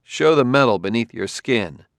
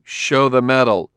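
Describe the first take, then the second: First: Said in the usual way. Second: Crisp, firm command; a touch louder, crisp order. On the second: A narrator's reading. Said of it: "said Bailey crisply".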